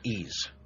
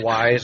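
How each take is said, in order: First: It sounds like the word 'ease'. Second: It sounds like the word 'whys'. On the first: The speaker calls it right. "Y S is actually pronounced Ease" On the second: The speaker calls it wrong. "if you've been saying Y's all this time, you can smack yourself"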